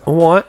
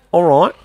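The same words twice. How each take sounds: First: "All right" as "awwight", London style; London accent, W in place of R. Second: "All right" with a clear R, Australian; Australian accent, R in "right". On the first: Repeating the comparison, London accent. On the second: Repeating the comparison, Australian accent. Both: Shown as a demonstration. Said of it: "change out that W for an R".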